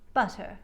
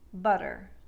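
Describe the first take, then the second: First: The middle T is a light, crisp T. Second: The middle T is a soft D sound. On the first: "light, crisp T sounds abound in the transatlantic accent" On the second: "Modern American accents will take these words and say"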